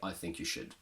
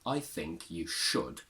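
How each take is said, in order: First: The final 'should' is reduced with a schwa. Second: The final 'should' has a full, strong vowel. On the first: The speaker calls it wrong. "We can't say" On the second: The speaker calls it right. "we still need to make it strong. So I can say"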